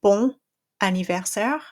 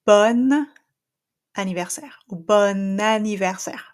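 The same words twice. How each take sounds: First: Bon anniversaire with nasal bon and a break before anniversaire; non-linked French; wrong nasal take. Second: Bon anniversaire with the N carried into anniversaire, bon open; French liaison; linked N. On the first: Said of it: "instead of saying". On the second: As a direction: join bon to anniversaire with a clear N. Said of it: "I'm gonna say". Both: Shown as a demonstration.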